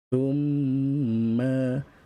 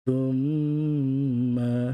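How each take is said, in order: First: The m is nasalized and held for two beats. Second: The m is nasalized and held for two beats.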